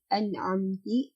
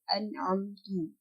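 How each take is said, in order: First: The word ends with an i vowel. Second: The word ends with a u vowel. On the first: "diubah menjadi an'amti" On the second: "atau an'amtu"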